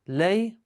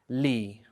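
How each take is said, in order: First: The word is said with an 'a' vowel. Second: The word is said with an 'i' vowel. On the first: The speaker calls it wrong. "if you're gonna keep it as a fatha, it's not right" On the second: The speaker calls it right. "It likes a kasra, so this one stays in the original state"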